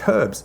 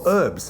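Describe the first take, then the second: First: The word begins with a sounded H. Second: The word is said the American way, without H.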